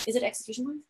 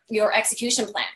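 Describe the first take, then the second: First: "execution plan?" asked softly, rising at the end; questioning rise. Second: Said in the usual way. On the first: Shown as a demonstration. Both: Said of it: "every time I say execution plan".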